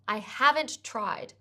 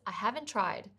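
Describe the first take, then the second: First: The final t of haven't is pronounced separately. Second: The final t of haven't merges into tried.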